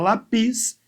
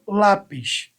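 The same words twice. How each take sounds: First: The stress is on the last syllable. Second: The stress is on the first syllable. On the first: The speaker calls it wrong. "Não se fala lápis" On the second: The speaker calls it right. "se fala lápis"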